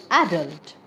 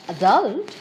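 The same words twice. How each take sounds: First: "adult" stressed on the first syllable, AD-ult. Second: "adult" stressed on the last syllable, a-DULT; stress on second syllable. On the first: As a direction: hit AD at the start of "adult". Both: Shown as a demonstration. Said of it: "multiple pronunciations".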